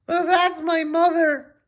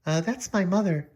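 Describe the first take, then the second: First: Put-on high squeaky girl voice, slow; a high squeak meant for Julie; Julie's voice done wrong. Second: Julie voice. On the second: Acted. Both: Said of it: "Oh, I'm messing up".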